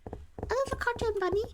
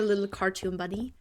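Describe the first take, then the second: First: High, soft squeaky bunny voice; cartoon bunny. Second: Said in the usual way. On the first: Streamer echoing the remark, little cartoon bunny voice. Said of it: "like a little cartoon bunny". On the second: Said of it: "You sound like".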